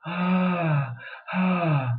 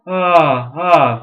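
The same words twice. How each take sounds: First: Breathy modal voice. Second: Much louder, full-bodied ah; full modal ah, much louder; fuller voice. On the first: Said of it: "I can make a breathy modal voice". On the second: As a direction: open up into a full ah. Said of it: "we call that fuller voice". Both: Shown as a demonstration.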